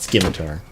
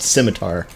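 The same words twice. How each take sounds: First: The C is hard, sounding like a K. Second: The C is soft, sounding like an S. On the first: The speaker calls it wrong. "It's not scimitar" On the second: The speaker calls it right. "You do not pronounce the C harsh harshly. It's, it's just scimitar"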